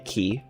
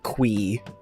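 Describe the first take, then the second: First: The word is pronounced like 'key'. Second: The word is pronounced like 'kwee'. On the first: This is how some other players say it. The speaker calls it right. "People that say key, that makes sense" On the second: This is how the game's developer says it. The speaker calls it wrong. "Kind of hate that pronunciation"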